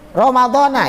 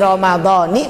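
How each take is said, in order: First: The word ends with an 'a' vowel. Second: The word ends with an 'i' vowel. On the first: The speaker calls it wrong. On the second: The speaker calls it right.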